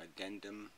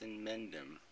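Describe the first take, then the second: First: The name begins with an 'add' sound. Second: The name begins with an 'in' sound. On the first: The speaker calls it wrong. "he keeps mispronouncing my name" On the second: The speaker calls it right. "how can you mispronounce in Mendum?"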